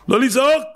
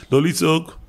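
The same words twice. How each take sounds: First: Much higher on לא לצעוק; insistent high repeat; emphatic raised voice. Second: Said in the usual way. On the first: Shown as a demonstration. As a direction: exclaim it, voice jumping up.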